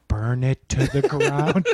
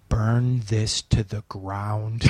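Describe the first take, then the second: First: The dark thought returns; a hint of the sinister inner voice. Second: Lower, very slow menacing voice; a dark voice inside urging destruction; sinister inner voice. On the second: Retold or imitated. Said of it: "This voice in my head goes".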